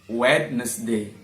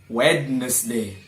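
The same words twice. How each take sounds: Both takes have the same delivery.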